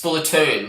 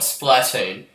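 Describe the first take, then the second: First: The syllables run together with even stress. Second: The first syllable's vowel gets strong stress. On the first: The speaker calls it right. "It's one word" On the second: The speaker calls it wrong. "with emphasis on the A"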